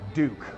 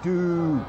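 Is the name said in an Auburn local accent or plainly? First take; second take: plain; Auburn local. First: The name is said in a plain, standard way. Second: The name is said in a local Auburn accent.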